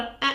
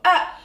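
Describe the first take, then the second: First: It is a small, light sound. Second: It is a big, forceful sound.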